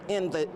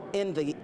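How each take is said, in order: Both takes have the same delivery.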